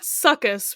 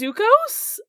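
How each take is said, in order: First: The name is said as 'succus'. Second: The name is said as 'sukos'. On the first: The speaker calls it wrong. "not Succus, which was originally what I wanted to do" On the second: The speaker calls it right. "I want to say is how you say it"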